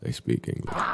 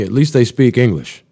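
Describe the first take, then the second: First: Whispered sarcastic repeat; under-breath aside. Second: Louder, higher mock cheer; sarcastic exclaim. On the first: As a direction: breathe it out softly, just to yourself. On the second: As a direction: throw out the line as a loud sarcastic jab. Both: Real, not acted.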